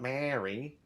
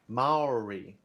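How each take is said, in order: First: It is said like the name Mary. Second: It is said with a distinct 'ow' sound. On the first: The speaker calls it wrong. "not Mary" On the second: The speaker calls it right.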